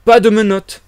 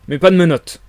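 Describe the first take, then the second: First: "Pas de menottes" high and loud; emphatic repeat. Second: Said in the usual way. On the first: A narrator's reading. Stranger refusing the policeman's rule, "Pas de menottes" loudly insisted. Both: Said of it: "répéta l'étranger".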